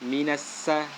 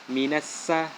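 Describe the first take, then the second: The two takes are said the same way.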